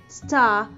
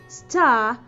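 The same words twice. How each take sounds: Both takes have the same delivery.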